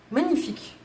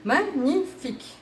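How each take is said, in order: First: Said in the usual way. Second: Magnifique étiré, lent et savouré; magnifique appuyé. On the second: Shown as a demonstration. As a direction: faire durer Magnifique avec admiration. (Magnifique prononcé lentement, en savourant)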